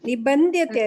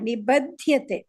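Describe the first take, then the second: First: An n sound comes before the dh. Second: No n sound comes before the dh. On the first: The speaker calls it wrong. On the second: The speaker calls it right.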